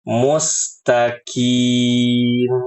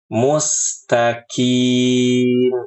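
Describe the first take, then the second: The two takes are said the same way.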